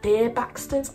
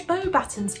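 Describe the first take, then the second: First: The word begins with a 'beer' sound. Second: The word begins with a 'bo' sound. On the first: The speaker calls it wrong. "I used to call it things like beer Baxtons" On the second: The speaker calls it right. "I'm glad I could say that right"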